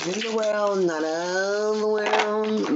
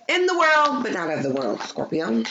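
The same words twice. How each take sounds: First: Slow, dreamy repeat; slow and drawn out. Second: Booming gospel declaration; proclaiming. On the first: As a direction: stretch out not of the world slowly. Repeats the gospel line. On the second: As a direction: announce it like a preacher. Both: Acted.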